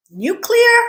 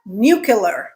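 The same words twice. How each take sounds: First: Nuclear as NEW-klee-er, high questioning lift; correct pronunciation. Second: Nuclear as NEW-kyuh-ler, falling; common mispronunciation. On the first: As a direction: say nuclear with CLEAR at the end, rising. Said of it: "it is nuclear". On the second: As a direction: end nuclear like "killer". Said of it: "We never say killer instead of clear". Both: Shown as a demonstration.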